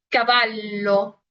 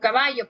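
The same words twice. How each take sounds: First: The middle sound is a long, held L. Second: The middle sound is a Y-like sound. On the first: The speaker calls it right. "en italiano se lee como caballo" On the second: The speaker calls it wrong. "ustedes lo leerían como caballo"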